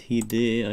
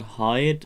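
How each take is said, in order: First: The name is said in a Japanese style. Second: The name is said in an English style. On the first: The speaker calls it right. "it's like the Japanese uh, pronunciation" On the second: The speaker calls it wrong. "It's actually not Hyde"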